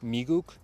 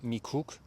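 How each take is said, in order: First: The final consonant sounds like a soft G. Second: The final consonant sounds like a hard K. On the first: This is how American speakers actually say it. "it's always come out as a G" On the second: This is the stereotyped version of how American speakers say it. "not a K"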